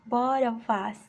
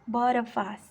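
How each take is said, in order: No difference in how they are said.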